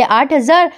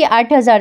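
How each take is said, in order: First: आठ हजार? rising in mild disbelief; disbelieving echo. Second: Said in the usual way. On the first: Retold or imitated. Daughter scoffs at mother's maid salary, incredulous rise. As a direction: echo the number back as a shocked question.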